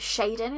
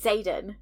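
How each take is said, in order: First: The name begins with a 'sh' sound. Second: The name begins with a 'z' sound. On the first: It follows a Chinese or Japanese reading of the letter. "Chinese, Japanese kind of way of how you pronounce like that X A sound" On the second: It is the pronunciation used on the audiobook. "on the audio they say Zayden"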